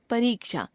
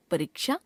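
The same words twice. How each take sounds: First: Said in the usual way. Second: परीक्षा with short इ, rising; wrong pronunciation. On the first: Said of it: "शुद्ध". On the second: Shown as a demonstration. Teacher showing a common error, परीक्षा with short middle vowel. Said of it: "अशुद्ध".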